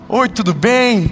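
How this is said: It is said cheerfully, with a smile.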